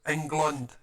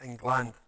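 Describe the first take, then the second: First: England with a short, reduced last vowel; England said "Eng-glund". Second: England with a full "land" at the end; England said "Eng-land". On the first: Correcting how England is said, ending "England" in "glund". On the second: Showing the wrong way, "England" with full "land". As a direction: say England ending in a clear "land". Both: Shown as a demonstration. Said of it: "it's not England".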